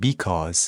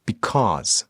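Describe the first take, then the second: First: Because stressed wrongly on the first syllable, BE-cause; the wrong way: hit "be" in because. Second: Because stressed on the second syllable, be-CAUSE; the right way: land on "cause" in Because; correct stress. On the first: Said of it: "نمیگیم". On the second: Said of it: "روی قسمت دوم هست استرس". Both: Shown as a demonstration.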